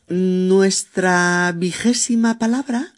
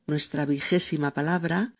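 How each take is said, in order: First: Announcing. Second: Said in the usual way. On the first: Shown as a demonstration. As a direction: announce "Nuestra vigésima palabra" with a slow lift.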